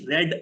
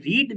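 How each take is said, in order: First: "read" said as "red", short e; past-tense pronunciation. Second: "read" said as "reed", long ee; present-tense pronunciation. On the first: Teacher giving an example about yesterday, "read" pronounced "red". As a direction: say "read" to rhyme with bed. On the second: Teacher giving an everyday example, "read" pronounced "reed". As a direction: say "read" to rhyme with need. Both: Shown as a demonstration. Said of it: "you pronounce it differently".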